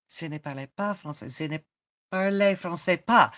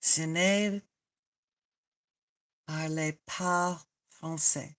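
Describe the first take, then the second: First: Quick retry. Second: "parle pas français" slow and soft, word by word; sounding it out. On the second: Trying out French for a viewer, slow and tentative. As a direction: feel out "parle pas français" slowly, with gaps. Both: Shown as a demonstration. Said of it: "how you say it?".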